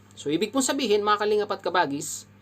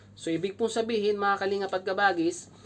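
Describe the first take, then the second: No difference in how they are said.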